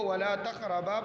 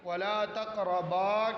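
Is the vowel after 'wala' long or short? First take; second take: short; long. First: The vowel after wala is cut short. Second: The vowel after wala is held long. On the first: The speaker calls it wrong. "असली हालत से कम पढ़ना" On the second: The speaker calls it right. "अलिफ को"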